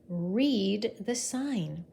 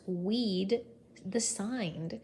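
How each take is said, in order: First: Said in the usual way. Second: "Weed" said with a w in place of r, slowly. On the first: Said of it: "He tried to say". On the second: Shown as a demonstration. Teacher showing Watney's speech, w for r. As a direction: soften the r of read into a w. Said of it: "all he said was".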